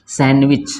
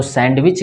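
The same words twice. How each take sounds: First: सैंडविच as "san-wich", no D; D left out of सैंडविच; correct, silent D. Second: सैंडविच with the D sounded; audible D in सैंडविच; mispronounced with D. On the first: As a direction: model सैंडविच clearly with the D dropped. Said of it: "इसका pronunciation क्या होगा". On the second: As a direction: say the wrong सैंडविच as "sand-wich". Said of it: "ये गलत हो जाएगा". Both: Shown as a demonstration.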